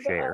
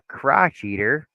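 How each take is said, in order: First: It is said as crow-shay-er, with no ch. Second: It is said like the words crotch eater. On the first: It is the word as people normally say it. The speaker calls it right. "instead of" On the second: It imitates a synthetic voice misreading the word. The speaker calls it wrong. "it was talking, and it was like, yeah, even if you're a crotch eater"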